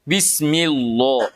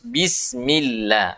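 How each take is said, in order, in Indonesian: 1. Huruf L dibaca tebal dan berat. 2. Huruf L dibaca tipis dan ringan. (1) "Tidak boleh dibaca"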